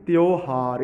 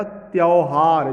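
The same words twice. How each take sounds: First: त्योहार as "tyo-haar" with a pure "o"; "o" vowel. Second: त्योहार mispronounced slowly as "tyau-haar"; "au" vowel. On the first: Teacher giving the correct form, "o" vowel. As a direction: round the middle of त्योहार to "o". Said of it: "जबकि क्या होना चाहिए". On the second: Teacher reading the misspelling, "au" vowel. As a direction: open the middle of त्योहार to a drawn-out "au". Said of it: "तो क्या हो गया". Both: Shown as a demonstration.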